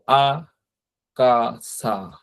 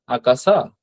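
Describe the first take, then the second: First: আকাসা broken slowly into আ, কা, সা; very slow, separated আ-কা-সা; syllable by syllable. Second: Said in the usual way. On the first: Shown as a demonstration. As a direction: draw out each syllable of আকাসা with gaps. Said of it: "অর্থাৎ সামনের যে এই অক্ষরগুলো". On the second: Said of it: "মুখে বলেন".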